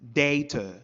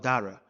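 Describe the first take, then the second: First: The middle consonant is a crisp t sound. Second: The middle consonant is a soft d-like tap.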